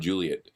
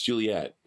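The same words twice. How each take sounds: First: The name is said the plain English way. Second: The name is said the French way. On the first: This is how the locals say it. "It's it's called Mount Juliet" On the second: This is how the newcomer says it. "The French pronunciation, right?"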